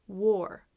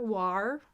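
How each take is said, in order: First: "war" with a rounded or vowel; or sound. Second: "war" with an ah vowel, as in car; wrong vowel demo. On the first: Teacher models the right sound, "war" like wore. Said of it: "It's more of a or sound". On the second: Teacher shows the mistake, "war" like car. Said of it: "not a R". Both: Shown as a demonstration.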